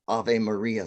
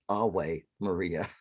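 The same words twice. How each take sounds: First: The v in Ave sounds like v. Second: The v in Ave sounds like w. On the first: The speaker calls it right. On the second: This is the classical Latin way. The speaker calls it wrong.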